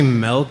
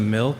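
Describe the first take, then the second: First: It is said with a Midwestern dialect vowel. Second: It is said with a standard vowel. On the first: "those people who say milk" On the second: "instead of milk"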